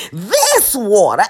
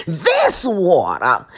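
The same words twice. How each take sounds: First: THIS WATER with heavy stress on THIS; slow, emphatic THIS WATER, coming down firmly at the end; added emphasis. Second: THIS WATER drawn out low, lifting at the end; THIS WATER, measured and stretched, left hanging; slow repeat of THIS WATER. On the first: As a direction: punch THIS, stretch it out, then fall on WATER. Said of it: "I gotta put some emphasis". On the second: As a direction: say THIS WATER slowly and lower, stretching both words. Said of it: "And I gotta put some emphasis". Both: Shown as a demonstration.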